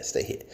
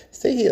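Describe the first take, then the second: First: Said in the usual way. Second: Much higher, louder order; sharp command. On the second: Real, not acted. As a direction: bark it up high at the snake. Telling the snake to stay.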